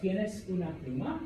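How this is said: The voice rises at the end. It asks whether he has a pen. "that's a question"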